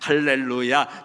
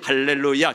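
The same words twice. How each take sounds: First: The word is said at a slow pace. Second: The word is said at a moderate pace.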